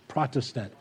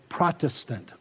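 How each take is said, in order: Both takes have the same delivery.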